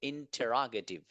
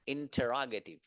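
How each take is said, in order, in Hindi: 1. यह शब्द 'intera' से शुरू होता है। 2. यह शब्द 'intera' से शुरू होता है।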